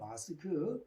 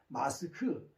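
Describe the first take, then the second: First: The word is said evenly, standard style. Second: The first syllable is hit hard, regional style. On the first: "교회에서는 표준음을 쓰는 게 좋아요" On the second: "경상도 사람들은 … 세게 앞에 발음을 세게 붙여요"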